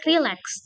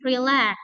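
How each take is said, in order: First: The stress is on the first syllable. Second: The stress is on the second syllable. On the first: The speaker calls it wrong. "bukan relax" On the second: The speaker calls it right. "tapi relax"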